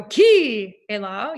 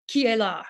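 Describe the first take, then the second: First: "Qui" stretched long and loud, then "est là" dropped quickly after; wrong-sounding, overblown emphasis on "Qui"; stress on Qui. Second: "Qui est là" with the emphasis falling on "là"; natural native stress, leaning on "là" in "Qui est là". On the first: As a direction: hammer and hold "Qui" in "Qui est là". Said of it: "you wouldn't go". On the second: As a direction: land on "là", keeping "Qui" short and unstressed. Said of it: "put the emphasis on the la". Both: Shown as a demonstration.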